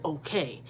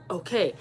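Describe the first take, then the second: First: Lower, softer, drawn-out "Okay"; pointed okay. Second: Said in the usual way. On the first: Retold or imitated. Daughter echoing mom's okay, low and pointed. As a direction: stretch "Okay" out low, mildly loaded. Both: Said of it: "Why is you saying okay like that".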